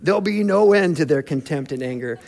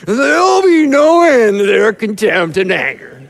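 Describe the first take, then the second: First: The words are spoken clearly, without slurring. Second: The words are spoken with a drunken slur.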